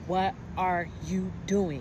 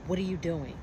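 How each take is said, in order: First: Slower, louder mock of a condescending question; talking down to her, drawn out; condescending repeat. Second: A retold, mildly condescending question; imitating a charge nurse talking down, slightly louder. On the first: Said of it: "a very condescending, disrespectful tone". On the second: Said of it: "in, like, a very condescending, disrespectful tone".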